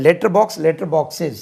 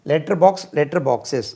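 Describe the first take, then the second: No difference in how they are said.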